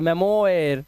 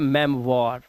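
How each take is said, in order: First: The ending sounds like 'oyer'. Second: The ending sounds like 'wahr'. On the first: The speaker calls it wrong. "नहीं" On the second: The speaker calls it right. "ये ओ आई जो होता है ये वाह बन जाता है"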